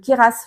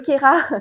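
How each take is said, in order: First: The name ends with an audible S sound. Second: The name ends without any S sound. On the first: The speaker calls it wrong. "je pense qu'on on prononce le S" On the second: The speaker calls it right. "on prononce pas le S"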